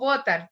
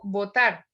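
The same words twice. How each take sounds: First: The stress is on the first syllable. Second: The stress is on the second syllable. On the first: The speaker calls it wrong. "no digo votar" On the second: The speaker calls it right. "el mayor acento está sobre la A de la segunda sílaba"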